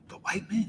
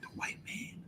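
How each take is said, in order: First: The phrase rises like an unsure question. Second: The phrase is whispered quietly. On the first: The speaker pretends not to be sure of the answer. "asking the question like they unsure" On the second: The speaker is afraid to say it openly. "they'll whisper it"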